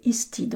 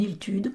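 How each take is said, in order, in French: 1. Le nom se dit avec une prononciation galloise. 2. Le nom se dit avec une prononciation française. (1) "je crois qu'il faudrait prononcer Istide en gallois" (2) "on le trouve francisé en Hiltude"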